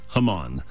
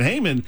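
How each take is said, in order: First: The name is said with a Hebrew pronunciation. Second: The name is said with an English pronunciation. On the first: The speaker calls it right. "In Hebrew, it's Haman. So it sounds a little different" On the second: The speaker calls it wrong. "for most of us, if you've read the story of Esther all your life, you're thinking Haman"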